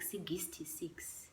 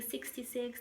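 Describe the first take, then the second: First: It is said in a deep Venda-style accent. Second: It is said in a plain English accent.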